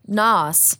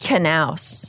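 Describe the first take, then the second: First: The name is said in an anglicized way. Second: The name is said in a Norwegian way. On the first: This is how the name is said in daily use. The speaker calls it wrong. "you are pronouncing it currently" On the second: This is the original form of the name. The speaker calls it right. "But it should be pronounced"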